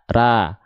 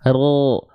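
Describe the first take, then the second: First: The vowel sounds like an open a. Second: The vowel sounds like a dark o. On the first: "Kalau pangkal lidah kita nggak diangkat, bunyi vokalnya nggak akan o tapi a" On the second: "Tapi kalau pangkal lidah kita diangkat"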